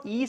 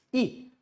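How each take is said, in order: First: E drawn as "ee"; E as the long vowel; long E sound. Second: E as a brief "ih"; E as the small i vowel; short E sound. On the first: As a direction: lengthen E to "eee". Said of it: "It's not E sound". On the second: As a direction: keep E short. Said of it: "it's E". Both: Shown as a demonstration.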